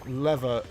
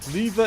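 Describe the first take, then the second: First: It is said with an American pronunciation. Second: It is said with a British pronunciation. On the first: "lever is American" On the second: "Lever is British"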